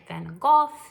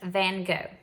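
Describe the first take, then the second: First: The name is said with a British pronunciation. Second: The name is said with an American pronunciation. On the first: "If we were in England, they say it" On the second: "That's how we would say it here in America"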